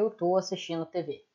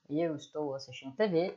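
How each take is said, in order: First: The short form tô is said, more quickly. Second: The full form estou is said, more slowly.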